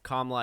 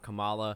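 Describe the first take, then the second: First: The second vowel of the name is silent. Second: The second vowel of the name is sounded. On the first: The speaker calls it right. "I guess the second A is silent" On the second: The speaker calls it wrong. "It's not Kamala"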